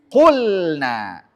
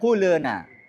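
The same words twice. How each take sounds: First: The L is pronounced cleanly with no added sound. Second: The L is blurred with an extra vowel sound. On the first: The speaker calls it right. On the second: The speaker calls it wrong.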